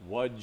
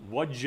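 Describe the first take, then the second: No difference in how they are said.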